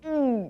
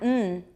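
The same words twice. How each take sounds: First: It is made with no air through the nose. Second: It is made with air through the nose. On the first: The speaker calls it right. "remember you're swallowing. Keep your mouth closed" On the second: The speaker calls it wrong. "If you say mm, then it's coming in your nose"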